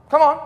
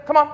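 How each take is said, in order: First: Higher and louder call, like to a dog. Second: Said in the usual way. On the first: Retold or imitated. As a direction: call it out across the yard. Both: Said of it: "It's pretty easy for you to just say".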